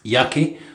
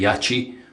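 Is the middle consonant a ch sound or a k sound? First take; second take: k sound; ch sound. First: The middle consonant is a hard k sound. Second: The middle consonant is a ch sound. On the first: This is the speaker's own habitual way of saying it. The speaker calls it wrong. "which is how I've always pronounced it" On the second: This is how other people say it. The speaker calls it right. "Some people pronounce it the correct way and say Yachi"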